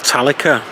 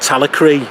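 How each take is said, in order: First: The name is said to end like Metallica. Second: The name is said the Welsh way.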